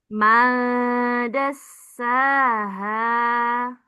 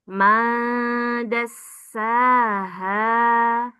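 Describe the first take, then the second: Both takes have the same delivery.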